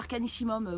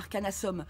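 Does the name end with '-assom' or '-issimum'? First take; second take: -issimum; -assom. First: The name ends with the sounds '-issimum'. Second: The name ends with the sounds '-assom'. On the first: The speaker calls it right. "c'est Arcanissimum, mon nom" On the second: The speaker calls it wrong. "c'est pas Arcanassom"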